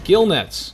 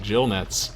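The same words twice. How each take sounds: First: Gill begins with a hard g sound. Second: Gill begins with a j sound. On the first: The speaker calls it right. "I pronounced it correctly this time" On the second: The speaker calls it wrong. "For like a year, I was pronouncing it gill nets"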